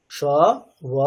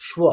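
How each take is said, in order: First: স and ব apart, a pause between; separate sounds. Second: স্ব joined into one "shwo"; combined conjunct. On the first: Teacher breaks the conjunct down for learners, sound by sound. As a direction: sound out স, then ব, each alone. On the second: Teacher puts the two letters together, blended. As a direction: blend sh and w in স্ব without a gap. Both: Shown as a demonstration. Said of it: "এই দুটো যখন combined হয়ে আছে".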